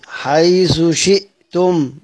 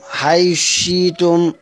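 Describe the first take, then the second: First: The th is kept; a glottal stop is heard. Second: The th merges; no glottal stop is heard. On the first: "والإظهار مع التحقيق" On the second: "الإدغام مع الإبدال"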